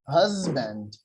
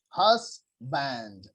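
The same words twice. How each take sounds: First: The middle consonant is a buzzing z sound. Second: The middle consonant is a hissing s sound. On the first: The speaker calls it right. "the correct pronunciation of this word is" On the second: The speaker calls it wrong. "some people uh, like here in my country, what they are saying"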